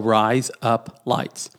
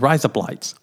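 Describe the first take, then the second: First: The three words are said slowly and separately. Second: The three words are run together quickly.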